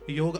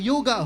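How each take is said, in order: First: The word ends on the consonant g. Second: The word ends with an added 'aa' vowel. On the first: It is the native form of the word. The speaker calls it right. "योग अपना था" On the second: It is the form that came back from America. The speaker calls it wrong. "America से योगा होकर लौटा"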